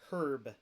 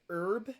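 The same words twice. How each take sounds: First: The word starts with an H sound. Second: The word starts without an H sound.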